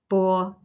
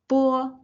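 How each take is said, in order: First: It is said flat at a lower pitch. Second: It is said flat at a higher pitch. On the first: "if you do have a low pitch, it's okay" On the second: "flat and with slightly higher pitch"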